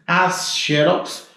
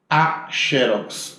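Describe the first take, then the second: First: "As" leaned on hard, "xerox" drawn out, rising; slow "As xerox" with the weight on "As"; article stressed, slow. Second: "a" leaned on, "xerox" drawn out, falling; slow "a xerox" with the weight on "a"; article stressed, slow. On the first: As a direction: stress the plural article "As" slowly. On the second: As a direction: stress the singular article "a" slowly. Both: Shown as a demonstration.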